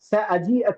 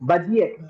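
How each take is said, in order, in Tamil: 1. இது 'sa' என்று தொடங்குகிறது, இது நிலையான வடிவம். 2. இது 'ba' என்று தொடங்குகிறது, இது எமிரேட்ஸ் வடிவம். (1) "அப்படித்தானே சொல்லணும் ஆக்சுவலா" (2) "அப்படியே மாத்தி பா"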